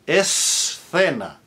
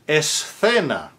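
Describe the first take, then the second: Both takes have the same delivery.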